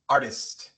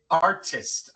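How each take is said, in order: First: The middle t is a quick R-like tap. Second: The middle t is a plain, clear T. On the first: The speaker calls it right. "se dice artist" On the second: The speaker calls it wrong. "No se dice artist"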